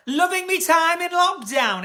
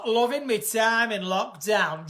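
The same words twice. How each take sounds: First: Slow Northern English "Loving me time"; Northern accent. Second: Slow, broader Northern "Loving me time in lockdown"; Northern accent. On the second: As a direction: stretch it in a Yorkshire accent. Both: Shown as a demonstration. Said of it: "Are you from North?".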